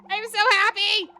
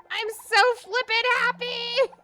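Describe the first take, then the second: First: Loud, higher cry of happiness; real joy. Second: Even louder and higher, almost screaming; real joy. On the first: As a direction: shout it out, overjoyed. Just caught Mew. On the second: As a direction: push the joy over the top. Repeats, more intense. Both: Real, not acted.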